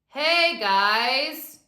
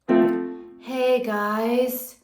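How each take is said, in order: First: The voice is full, strong and low. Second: The voice is breathy and weak. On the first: The speaker calls it right. "It's the lower part of your voice, okay? Hey, it's where you naturally probably feel that strength" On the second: The speaker calls it wrong. "where it's kind of breathy and there's no power or strength or connection"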